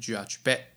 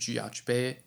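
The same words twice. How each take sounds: First: The word ends with a quick, sharp throat catch. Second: The word ends openly without a sharp catch. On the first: The speaker calls it right. "它的结尾是快速的卡掉，好像讲话讲到一半被人掐住了脖子一样" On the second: The speaker calls it wrong. "不是jiajbe"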